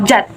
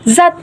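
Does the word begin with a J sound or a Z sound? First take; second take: J sound; Z sound. First: The word begins with a J sound. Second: The word begins with a Z sound. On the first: The speaker calls it wrong. "kesalahan ini terjadi pada kata zat" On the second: The speaker calls it right. "yang seharusnya merujuk pada kata zat"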